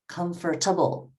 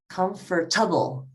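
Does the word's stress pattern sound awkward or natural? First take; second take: awkward; awkward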